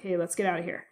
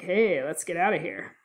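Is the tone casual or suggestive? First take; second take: casual; suggestive. First: It is said in a casual, matter-of-fact tone. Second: It is said in a flirty, suggestive tone.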